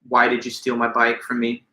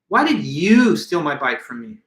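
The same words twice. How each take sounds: First: No word carries special emphasis. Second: The word you carries strong emphasis.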